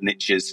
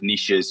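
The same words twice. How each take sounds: First: It is said with an American pronunciation. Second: It is said with a British pronunciation.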